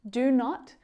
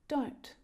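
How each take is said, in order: First: It is said as two full separate words. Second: It is said as one short contracted syllable. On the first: "Do not becomes don't" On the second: "contracted form"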